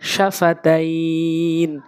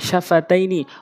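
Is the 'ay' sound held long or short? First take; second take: long; short. First: It stops on 'n' with the 'ay' stretched. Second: The word ends in 'ni' with no stretching.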